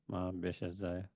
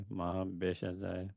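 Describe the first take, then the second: The two takes are said the same way.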